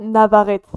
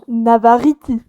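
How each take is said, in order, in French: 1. Le nom se prononce à la française. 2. Le nom se prononce à la non-française. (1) "Ça ne se dit pas Navarrete" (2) "ça se dit comment? Navarriti"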